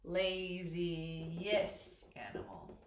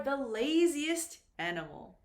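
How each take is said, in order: First: Very slow, low, word stretched while spelling; drawn out slowly. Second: Said in the usual way. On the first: Shown as a demonstration. Teacher building the superlative for students, drawn out slowly. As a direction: stretch LAZIEST out syllable by syllable, lower. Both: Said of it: "go through them slowly".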